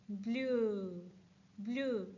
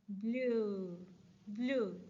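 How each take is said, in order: Both takes have the same delivery.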